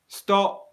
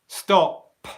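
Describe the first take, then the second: First: The final p is released with a slight puff. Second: The final p is released with a strong burst. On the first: The speaker calls it right. "where a little bit of airflow comes out, but not a lot" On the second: The speaker calls it wrong. "I do not say stop"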